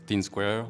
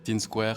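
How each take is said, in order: First: The name starts with an English 'th' sound. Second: The name starts with a plain 't' sound. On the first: "on peut le dire à l'anglaise" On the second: "si on a du mal à prononcer le H"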